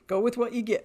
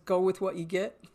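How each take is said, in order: First: Laughing. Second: Said in the usual way. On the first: Retold or imitated. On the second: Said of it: "he always says".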